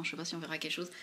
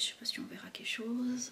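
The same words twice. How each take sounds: First: Said in the usual way. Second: Whispered aside. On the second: Real, not acted. Trying a swatch on camera.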